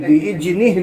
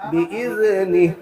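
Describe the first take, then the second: First: بإذنه said as "bijni" with a j sound; wrong dhal. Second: Tongue tip lightly between the teeth for ذ in بإذنه; correct dhal. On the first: Teacher shows the mistaken j in بإذنه. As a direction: turn the ذ of بإذنه into a j. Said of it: "بإذنه نہیں". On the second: Teacher models the right dhal in بإذنه. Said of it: "ذال کے مخرج کو نکالنا ہے". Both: Shown as a demonstration.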